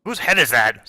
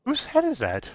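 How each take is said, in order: First: Character asking in a fuller, firmer voice; Wet Willie. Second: Small-voiced onlooker. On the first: Acted. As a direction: demand an answer, at a normal pitch. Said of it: "says Wet Willie". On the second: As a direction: ask it in a tiny, high voice. Second villager asks, high soft voice.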